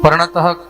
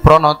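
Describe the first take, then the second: First: The word ends with a final breathy h sound. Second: The word ends on a vowel, without breath. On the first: The speaker calls it right. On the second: The speaker calls it wrong.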